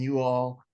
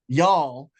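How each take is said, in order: First: It is said as two separate syllables. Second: It is contracted into a single syllable. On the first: The speaker calls it wrong. "I shouldn't say you all" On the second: The speaker calls it right. "I should say it correctly"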